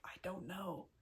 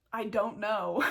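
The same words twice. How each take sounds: First: Hushed, barely voiced confession; quietly admitting I don't know; whispered. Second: Said in the usual way. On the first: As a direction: drop to a near whisper, sheepish. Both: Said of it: "And I was like".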